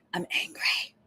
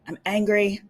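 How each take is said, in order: First: Whispered I'm angry. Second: Said in the usual way. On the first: Shown as a demonstration. Host redoing her outburst quietly, whispered. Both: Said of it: "that's a little loud".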